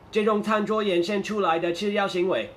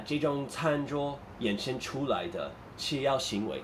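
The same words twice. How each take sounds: First: Flat run-on reading with no phrasing pauses; robotic, no pauses. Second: Slow, phrased reading with a short pause before 吃药行为; group 吃药行为 together after a slight break; natural pauses. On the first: Teacher shows students the wrong, robotic way of reading. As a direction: read it stiffly in one run, 这种餐桌延伸出来的吃药行为 with no break anywhere. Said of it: "It's, it's a little bit robotic". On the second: Teacher shows students natural thought-group pauses. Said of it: "there's some natural pauses in Chinese". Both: Shown as a demonstration.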